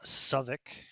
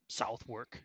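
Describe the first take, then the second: First: The name is clipped, with reduced middle sounds. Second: The name is said fully, following its spelling. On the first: This is how local people say it. "as the uh, locals call it" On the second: This follows the written form. "as it's spelled"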